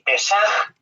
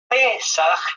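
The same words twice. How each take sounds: First: The stress is on the second syllable. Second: The stress is on the first syllable. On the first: It means sin. "con acento en la A" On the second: It means Passover. "con el acento en la E"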